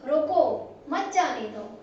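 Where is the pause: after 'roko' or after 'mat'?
after roko. There is a pause after the first word. Stop him and do not let him go. "हमने यहाँ पे बोल करके थोड़ा स्टॉप हुए हैं"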